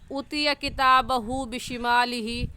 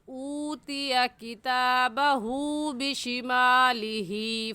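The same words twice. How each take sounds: First: The long vowels are cut short. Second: The long vowels are held long. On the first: The speaker calls it wrong. "ऐसे नहीं पढ़ेंगे" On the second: The speaker calls it right. "ऐसे पढ़ेंगे"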